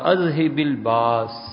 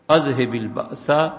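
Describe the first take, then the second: First: The last word ends on a consonant, no vowel. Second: The last word ends with a short 'a' vowel. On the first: "باس پہ رک گیا نا, سین پہ زبر نہیں پڑی" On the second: "یہ بھی سین پہ زبر پڑ لی"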